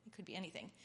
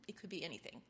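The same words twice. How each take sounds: The two takes are said the same way.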